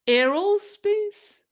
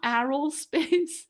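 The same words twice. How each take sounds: First: Aerospace with the e of hair, higher, louder and slow, with a laugh; hair vowel. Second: Aerospace with the a of arrow, slow and questioning; arrow vowel. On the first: Streamer laughing as she tries the hair-like aerospace. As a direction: say aerospace like hair, amused and unsure. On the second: Streamer testing the wrong aerospace for her viewers. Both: Shown as a demonstration. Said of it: "how do you say this word again".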